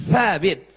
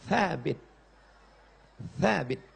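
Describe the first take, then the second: First: Thabit with tongue on upper teeth; correct th sound. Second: Thabit said softly, tongue on the teeth; softer demo. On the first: (Thabit dengan lidah di gigi atas) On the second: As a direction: quietly model the th of Thabit. (Thabit pelan, lidah di gigi) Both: Shown as a demonstration. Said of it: "Letakkan lidah di gigi atas".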